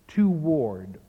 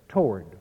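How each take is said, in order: First: The word is said as two syllables. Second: The word is said as one syllable. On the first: The speaker calls it wrong. "almost consistently pronounce the word in 2 syllables" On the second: The speaker calls it right. "Shakespeare requires a monosyllable there"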